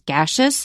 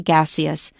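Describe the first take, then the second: First: The middle is said with a 'sh' sound. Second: The middle is said with an 's' sound. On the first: "the way Chris says it" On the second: "or you can say"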